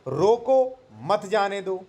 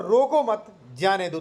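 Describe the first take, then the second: First: रोको set apart, rising, then a break before मत जाने दो; pause after रोको. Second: रोको मत joined as one phrase, a break, then जाने दो; pause after मत. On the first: (रोको के बाद विराम, फिर मत जाने दो एक साथ) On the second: (रोको मत एक साथ, विराम, फिर जाने दो) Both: Shown as a demonstration. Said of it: "इसके दो अलग-अलग मतलब मीनिंग निकल सकते हैं".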